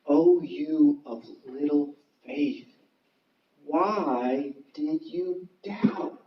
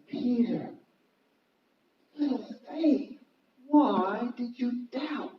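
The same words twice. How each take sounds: First: Slow, measured words of Jesus; solemn quote. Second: Softer, higher, slow questioning; gentle reproach. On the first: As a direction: draw the question out gravely. Acting Jesus's question to Peter. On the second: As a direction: ask it tenderly, with pauses between phrases. Repeats Jesus's question more gently. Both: Acted.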